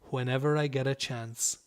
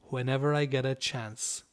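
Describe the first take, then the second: No difference in how they are said.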